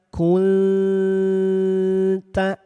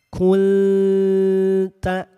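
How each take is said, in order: No difference in how they are said.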